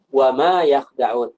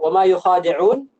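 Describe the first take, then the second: First: "يخدعون" with kha closed straight onto da; no vowel after the kh in "يخدعون"; reading without alif. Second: "يخادعون" with a long open khaa; long-alif reading. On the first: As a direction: recite "يخدعون" as yakh-da-'uun. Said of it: "qiraah yang baca". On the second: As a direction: draw out the khaa in "يخادعون", then a short di. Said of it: "supaya sesuai dengan qiraah yang baca". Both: Shown as a demonstration.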